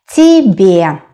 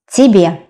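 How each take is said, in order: First: Slow, separated syllables in "Тебе"; careful teacher's "Тебе", stretched out; slow model. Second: Said in the usual way. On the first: Shown as a demonstration. Teacher models new word slowly.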